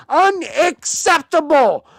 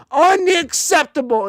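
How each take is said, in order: First: Higher, slow, louder unacceptable; slow angry verdict. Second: Higher, louder unacceptable again at pace; angry repeat. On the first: Fan condemning his team's play, slow and angry. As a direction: hammer the word down slowly. Angry rant about team. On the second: Fan repeating his angry verdict on the team. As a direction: fire it off once more. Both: Real, not acted.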